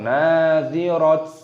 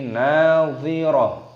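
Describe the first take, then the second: First: The word ends with a t sound. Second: The word ends with a soft h sound. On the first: The speaker calls it wrong. "atau nadhirat" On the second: The speaker calls it right. "tapi nadhirah"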